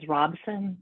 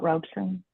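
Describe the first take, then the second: First: The first syllable sounds like 'rob'. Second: The first syllable sounds like 'robe'. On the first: The speaker calls it right. "my last name is Robson" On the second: The speaker calls it wrong. "not Robeson"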